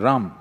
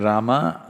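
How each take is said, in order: First: The final vowel is cut off, North Indian style. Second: The final vowel is fully pronounced.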